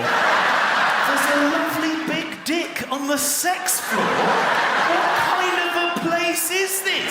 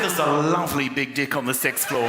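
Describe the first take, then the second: First: High, drawn-out, hammed-up shock; mock scandalised disbelief. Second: Imitated New Zealand receptionist, deck as dick, sixth as sex; matter-of-fact New Zealand accent with swapped vowels. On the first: Guest repeating the receptionist's words back, mock scandalised. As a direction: repeat it slowly in soaring comic outrage. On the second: Receptionist innocently describing the pool deck, New Zealand accent. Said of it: "She said".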